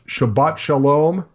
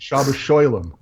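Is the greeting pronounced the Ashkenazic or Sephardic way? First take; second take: Sephardic; Ashkenazic. First: It is said with Sephardic vowels and a final t. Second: It is said with Ashkenazic vowels and a final s.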